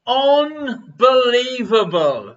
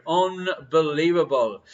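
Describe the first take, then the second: First: Slow, stretched Unbelievable; drawn-out answer. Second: Said in the usual way. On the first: Acted. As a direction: draw out Unbelievable slowly.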